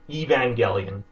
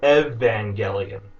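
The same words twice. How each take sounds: First: The first vowel is a long 'ee' sound. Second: The first vowel is a short 'eh' sound. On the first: "like the letter E of the alphabet" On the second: "E as an elephant"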